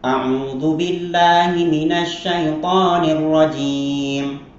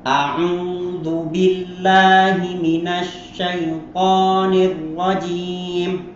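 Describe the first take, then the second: First: It is recited quickly. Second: It is recited slowly and carefully. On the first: "Atau dengan hadar" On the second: "Saya kasih contoh misalnya tahqiq ya"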